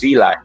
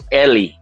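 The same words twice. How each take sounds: First: The name is pronounced with English sounds. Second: The name is pronounced with Spanish sounds.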